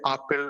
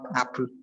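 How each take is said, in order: First: The first vowel is replaced by a non-English vowel. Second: The first vowel is the English vowel. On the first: This is how it is said in the speaker's native language. "we don't have the a sound, we just have the a" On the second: This is the English pronunciation. "and not"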